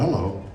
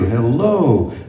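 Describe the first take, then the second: First: It sounds distant, as if to a stranger. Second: It sounds warm, as if to a friend.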